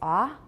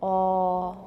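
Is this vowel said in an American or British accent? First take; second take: American; British. First: The vowel is open and unrounded, like ah. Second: The vowel is rounded, closer to oh. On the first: "in American, it's ah" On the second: "but in British, oh"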